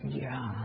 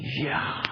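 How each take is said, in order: First: It is said with less excitement. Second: It is said very excitedly.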